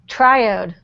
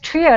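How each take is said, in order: First: The first syllable rhymes with 'dye'. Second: The first syllable does not rhyme with 'dye'. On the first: "I always thought it was triode, like diode" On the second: "I didn't know it was pronounced triode"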